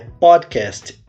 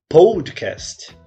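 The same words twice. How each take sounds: First: The first vowel has an English-like sound. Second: The first vowel has a Portuguese-like O sound. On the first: The speaker calls it right. "a pronúncia correta é" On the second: The speaker calls it wrong. "e não"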